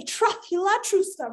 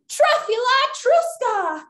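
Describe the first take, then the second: First: Said in the usual way. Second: High, slow, drawn-out magic words; magic incantation. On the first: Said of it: "we're gonna say". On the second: Pretend. Leader casting a spell with children, grand incantation. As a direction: proclaim the spell grandly, stretching it out. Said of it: "on the count of three".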